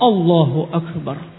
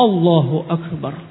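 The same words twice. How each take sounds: First: The opening vowel is short and direct. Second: The opening vowel is short and direct.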